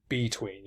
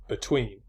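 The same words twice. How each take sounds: First: "between" with the stress moved onto BE; wrong-stress demo. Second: "between" with a light first syllable, stress on TWEEN; iambic stress demo. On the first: Lecturer showing students how not to stress "between", first syllable stressed. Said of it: "You don't say between". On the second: Lecturer showing students an iambic word, "between" stressed on the second syllable. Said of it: "you say between". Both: Shown as a demonstration.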